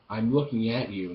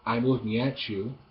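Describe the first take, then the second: First: The T and you are said separately. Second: The T and you blend into a ch. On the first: The speaker calls it right. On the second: The speaker calls it wrong.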